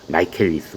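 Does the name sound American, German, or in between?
American. It starts 'my-ke' with a diphthong and k.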